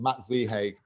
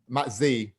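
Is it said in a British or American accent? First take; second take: American; British. First: It is said in an American accent. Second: It is said in a British accent.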